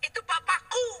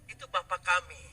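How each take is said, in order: First: BAPAKKU pitched high, rising at the end; bold claim. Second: Said in the usual way. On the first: Acted. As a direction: proclaim "Bapakku" high and ringing out. Jesus' bold claim versus ours. ("Bapakku" diucapkan tinggi dengan nada naik)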